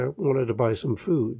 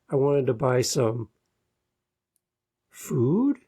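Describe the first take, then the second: First: The pitch falls at the end like a statement. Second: The pitch rises at the end like a question. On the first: The speaker sounds sure of themselves. The speaker calls it right. "where we could be going down" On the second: The speaker sounds unsure of themselves. The speaker calls it wrong. "Our voices go up frequently"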